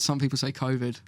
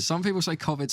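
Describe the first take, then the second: First: "covid" with a long o, as in "cove"; first vowel of "covid" a long "oh". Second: "covid" with a short o, like "cov" in "hover"; first vowel of "covid" short and open. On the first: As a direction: say "covid" as COH-vid. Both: Shown as a demonstration.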